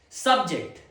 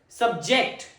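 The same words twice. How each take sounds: First: The stress is on the first syllable. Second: The stress is on the second syllable. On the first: It is a noun naming a topic. "The first syllable is stressed" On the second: It is a verb meaning to make someone endure something. "Second pronunciation"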